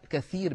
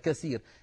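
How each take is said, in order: First: The middle consonant is a 'th' sound. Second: The middle consonant is an 's' sound. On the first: There is a lot of something. The speaker calls it right. "يقول كثير بالثاء" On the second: Something is broken. The speaker calls it wrong. "ويقولها بالسين هكذا"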